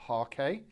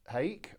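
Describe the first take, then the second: First: "Harkay" in two syllables, HAR-kay; two-syllable pronunciation. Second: "hake" as one syllable, like "cake"; one-syllable pronunciation. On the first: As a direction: say "Harkay" ending in an open "kay". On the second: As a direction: say "hake" with a long A and silent E. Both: Shown as a demonstration. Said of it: "depending on how you want to pronounce it".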